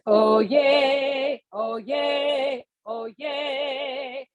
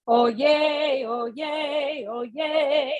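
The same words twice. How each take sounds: First: Higher, supported cheer fading at the end; energetic oh yay. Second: Higher, bright energetic oh yay; cheerful oh yay. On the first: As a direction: call out oh yay with breath support. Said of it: "put a little bit of volume supported". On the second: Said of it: "the thing we're going to say is". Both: Shown as a demonstration.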